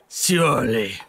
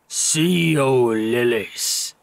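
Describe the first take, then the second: First: It is said at normal speed. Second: It is said slowly and drawn out.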